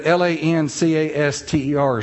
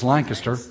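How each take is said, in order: First: Lancaster said LAN-CAS-ter, full vowel in the middle; outsiders' pronunciation. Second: Lancaster said LANK-iss-ter; local pronunciation. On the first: Mocking foreigners to a home crowd, Lancaster as spelled. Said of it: "They think that L A N C A S T E R is pronounced". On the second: Telling locals what everybody knows, Lancaster as LANK-iss-ter. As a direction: squash the middle of Lancaster, stress up front. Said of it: "everybody knows it's Lancaster". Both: Shown as a demonstration.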